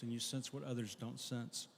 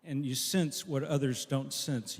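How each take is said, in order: First: Softly repeated. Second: Said in the usual way. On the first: Shown as a demonstration. Same line repeated much softer.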